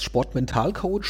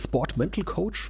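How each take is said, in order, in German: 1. Das Wort wird deutsch ausgesprochen. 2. Das Wort wird englisch ausgesprochen. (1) "wie spricht man das Deutsch oder Englisch aus?" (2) "wie spricht man das Deutsch oder Englisch aus?"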